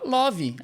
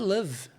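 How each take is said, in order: First: It is said with a Brazilian Portuguese accent. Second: It is said with a native English accent. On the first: The speaker calls it wrong. "Todo mundo fala love" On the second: The speaker calls it right. "Em inglês é love"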